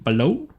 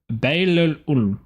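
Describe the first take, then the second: First: The name is said in two syllables. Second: The name is said in three syllables. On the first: The speaker calls it wrong. "My pronunciation is terrible today" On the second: The speaker calls it right. "that's actually Bailey-ul"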